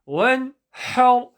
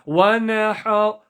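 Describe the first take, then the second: First: The n sound is held without any bounce. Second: The n sound has an added bouncing release. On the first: The speaker calls it right. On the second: The speaker calls it wrong.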